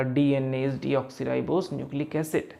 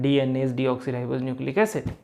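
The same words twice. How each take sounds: First: Very slow, every syllable spelled out; slow dictation. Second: Slow, careful line-reading; slow reading aloud. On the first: Teacher reading aloud a fact to students, very slowly. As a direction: read it out word by word like dictation. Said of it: "मैंने बोला". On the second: Teacher showing students how to read a line, slowly. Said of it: "मैं पढ़ रहा हूँ". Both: Shown as a demonstration.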